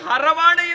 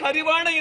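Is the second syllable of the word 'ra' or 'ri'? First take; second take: ra; ri. First: The second syllable is pronounced 'ra'. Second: The second syllable is pronounced 'ri'. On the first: It avoids the forbidden name Hari. The speaker calls it right. "ಹರವಾಣ ಎಂದೇ ಉಚ್ಚರಿಸಬೇಕು" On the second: It contains the forbidden name Hari. The speaker calls it wrong. "ಯಾರು ಇಲ್ಲಿ ಹರಿವಾಣ ಎಂದು ಉಚ್ಚರಿಸುವುದಿಲ್ಲ"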